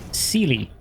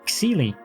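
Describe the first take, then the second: First: The name begins with an S sound. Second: The name does not begin with an S sound. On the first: This is how most English speakers would say it. "because X and English usually is C, like a C sound" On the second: This is how the owner says her own name. "she she pronounces her own nick"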